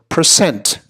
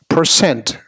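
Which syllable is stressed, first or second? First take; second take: second; second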